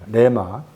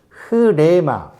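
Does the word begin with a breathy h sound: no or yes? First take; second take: no; yes. First: The word starts directly without an h sound. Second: The word starts with a breathy h sound. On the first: It is the simple everyday form. "그냥, 레마, 레마라 해요" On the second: It follows the original language. "언어 살려서 발음하면 이렇게 되는 건데"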